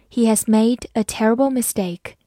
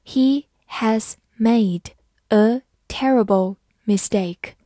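First: Said in the usual way. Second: Slow, even reading pace; careful slow model reading. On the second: Shown as a demonstration. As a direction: read each word slowly. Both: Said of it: "好，慢读一遍。".

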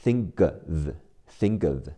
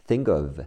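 First: "think of" run together as thin-guv; linked, k as g. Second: Said in the usual way. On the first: Shown as a demonstration. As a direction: link "think of", turning the k into g. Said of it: "think会变成g，和后面的a连起来".

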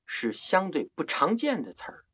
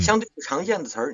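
First: 不常见 leaned on, slow and higher; slow down and hit 不常见; teaching stress on 不常见; stressed rare word. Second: 相对 punched high and loud; teacher stressing 相对不常见; stressed rare word. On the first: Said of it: "我们常说重音". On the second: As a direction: hit 相对不常见 hard. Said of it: "把它重音重读". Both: Shown as a demonstration.

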